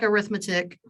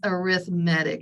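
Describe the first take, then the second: First: The stress is on the second syllable. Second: The stress is on the third syllable. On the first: It names the branch of math about adding. "I know it looks like arithmetic" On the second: It names a kind of sequence built by adding. "we put the emphasis on the wrong syllable"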